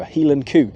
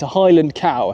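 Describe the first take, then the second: First: Cow is said with a Scottish oo vowel. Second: Cow is said with an English vowel.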